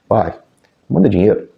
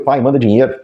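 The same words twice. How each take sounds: First: It is said in a soft, gentle tone. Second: It is said in a harsh, angry tone. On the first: The son is kindly asking for help. The speaker calls it right. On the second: The son is rudely demanding money. The speaker calls it wrong.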